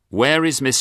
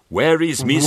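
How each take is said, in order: First: It is spoken in a plain, neutral accent. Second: It is spoken in a West Indian accent. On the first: The speaker calls it right. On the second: The speaker calls it wrong. "You can't do an Antiguan voice"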